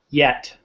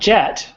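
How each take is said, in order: First: The word begins with a Y sound. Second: The word begins with a J sound. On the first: The speaker calls it right. "In English, we say yeah, yet" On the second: The speaker calls it wrong. "Not jet"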